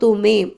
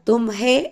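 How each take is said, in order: First: The h sound is left silent. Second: The h sound is clearly pronounced. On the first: The speaker calls it right. "അപ്പോൾ തുമേം എന്ന് വരുള്ളൂ" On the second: The speaker calls it wrong. "തും ഹേ എന്ന് നമ്മൾ പറയില്ല"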